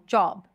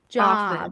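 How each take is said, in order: First: The vowel is said with rounded lips. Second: The vowel is said with unrounded lips. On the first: "In British English, you might round your lips a bit more" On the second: "This is American"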